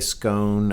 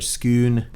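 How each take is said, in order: First: The name is said the speaker's usual, non-Scottish way. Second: The name is said the way Scottish speakers say it. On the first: "we tend to say scone" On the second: "the Scottish say scoon"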